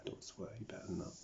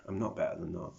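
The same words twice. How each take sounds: First: Softly voiced inner reprimand; self-scolding voice. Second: Said in the usual way. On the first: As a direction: chide yourself under your voice, lightly acted. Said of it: "I don't wanna swear". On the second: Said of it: "so don't lie to me".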